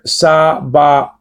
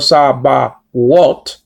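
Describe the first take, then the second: First: No consonant comes before the final o. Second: A w sound comes before the final o. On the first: The speaker calls it right. "Just like in the word sabaot" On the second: The speaker calls it wrong. "or sabawot"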